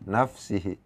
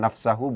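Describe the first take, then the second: First: The vowel after the s is i. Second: The vowel after the s is a. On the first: The speaker calls it right. "Pakai kasroh di sini" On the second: The speaker calls it wrong. "bukan nafsahu"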